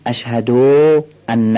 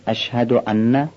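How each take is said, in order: First: Wrong way: the short vowel of ان dragged; wrong recitation. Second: ان with a clear glottal hamza and a short vowel; correct hamza. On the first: Teacher showing students the mistake in ان. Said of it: "اینا درست نیست". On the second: Teacher showing students the correct ان. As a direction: say ان with a crisp hamza, no stretch. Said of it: "همزه ها رو بیان کنیم". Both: Shown as a demonstration.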